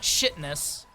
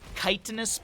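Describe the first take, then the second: First: The word begins with a 'sh' sound. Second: The word does not begin with a 'sh' sound. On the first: The speaker calls it wrong. "Not shitness. Don't pronounce that shitness" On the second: The speaker calls it right. "I believe is the pronunciation"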